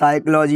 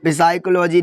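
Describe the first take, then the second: First: The initial P is silent. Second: The initial P sound is pronounced. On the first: The speaker calls it right. "ये साइकोलॉजी होता है" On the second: The speaker calls it wrong. "ये देखो साइकोलॉजी नहीं होता है"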